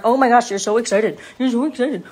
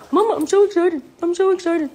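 First: Loud owner cooing at a dog; match the dog's excitement in your own voice; gushing pet talk. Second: High, loud puppy; high-pitched, eager talking pet; excited dog voice. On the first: Real, not acted. Owner talks back to dog. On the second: Pretend. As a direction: squeal it as an overjoyed dog to its owner. Dog answers its owner.

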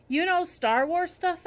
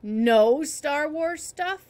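First: High, slow, surprised question; raised-pitch, wondering question; curious question. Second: KNOW stretched long and loud; very slow, loud stress on "No"; incredulous echo. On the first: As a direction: ask with interest, lifting KNOW. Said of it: "I asked the ear doctor". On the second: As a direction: throw the question back, leaning hard on "No". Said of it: "he answered". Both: A narrator's reading.

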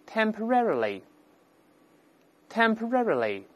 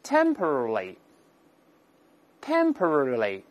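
First: "temporarily" stressed on RER, tem-puh-RER-uh-lee; American model of "temporarily", higher-pitched, stress on the A as "eh"; American later stress. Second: "Temporarily" very slow, stressed on TEM; drawn-out British "temporarily", falling away after the first syllable; British front stress. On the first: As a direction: lift the middle of "temporarily" high, then fall. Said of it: "它重音后移了". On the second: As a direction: drill "Temporarily" the British way, TEM-pruh-ruh-lee. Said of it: "英式发音重音在前面". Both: Shown as a demonstration.

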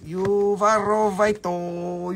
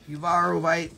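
First: Uvarovito said slowly with a rolled mock-Spanish -o ending; playful mock Spanish ending. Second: Said in the usual way. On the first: Shown as a demonstration. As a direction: stretch out Uvarovito like a Spanish word, ending on a bright o.

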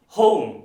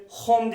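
First: "Home" as "hoh-oom", punched loud; a loud "Home" with a gliding vowel; correct diphthong. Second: "Home" as short "hom"; no glide in the vowel of "Home"; wrong pure O. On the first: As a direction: glide "o" into "u" in "Home". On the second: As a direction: mispronounce "Home" with a Turkish "o". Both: Shown as a demonstration. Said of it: "Home diye bir şey yok".

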